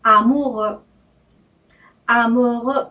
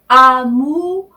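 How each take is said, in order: First: 아무르 repeated with French R; French pronunciation. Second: 아무르 louder with French R; French pronunciation. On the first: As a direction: amoureux twice, careful. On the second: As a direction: model amoureux clearly. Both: Shown as a demonstration. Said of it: "이렇게 발음하셔야 돼요".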